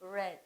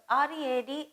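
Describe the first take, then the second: First: "read" with a short e, like "red"; "read" as the past participle, "red"; past-tense pronunciation. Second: "read" with a long ee, like "reed"; "read" as in the present tense, "reed"; present-tense pronunciation. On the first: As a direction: say "read" to rhyme with "bed". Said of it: "it is pronounced as". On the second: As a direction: say "read" to rhyme with "need". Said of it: "is not pronounced as read here". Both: Shown as a demonstration.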